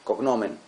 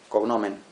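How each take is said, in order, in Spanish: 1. La sílaba tónica es la segunda. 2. La sílaba tónica es la primera. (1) "pero es, es grave" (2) "lo pronuncié como una palabra esdrújula"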